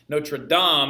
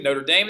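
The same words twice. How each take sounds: First: It is said with a French-style pronunciation. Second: It is said with an anglicized, English-style pronunciation. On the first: It refers to the cathedral in Paris. "is the cathedral in Paris" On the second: It refers to the university. "is a university that we mispronounce"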